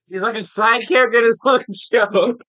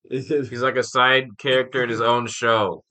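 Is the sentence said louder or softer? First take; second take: louder; softer. First: The sentence is said at a louder volume. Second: The sentence is said at a softer volume.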